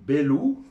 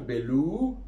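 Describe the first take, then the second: First: The stress is not on the last syllable. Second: The stress is on the last syllable. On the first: It means the master. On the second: It means one who destroys or is extinguished.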